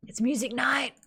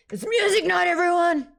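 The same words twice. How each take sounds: First: Hushed, half-whispered excitement; breathy whisper before the big announcement. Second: High, loud announcement to the crowd; big high-pitched hype yell; excited shout. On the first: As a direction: whisper the news like a little tease. Announcing concert, first softly then full out. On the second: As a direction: holler it out to everyone. Calling out concert to everyone. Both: Real, not acted.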